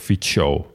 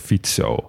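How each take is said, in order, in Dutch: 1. De c klinkt als tsch. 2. De c klinkt als ts. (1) "Dan wordt het een tsch" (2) "een C in het Slovaak spreek je uit als TS"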